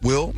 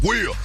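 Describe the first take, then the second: First: The name is said in a soft, polite tone. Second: The name is said in a harsh, aggressive tone. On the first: This is the respectful way to address a boss. The speaker calls it right. "you gotta change your voice, you know, when you're talking to your boss" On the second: This is too rough for talking to a boss. The speaker calls it wrong. "you can't sound aggressive like that. I can't be like"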